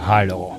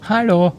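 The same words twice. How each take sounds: First: It is said coolly, as to a stranger. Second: It is said warmly, as to a friend.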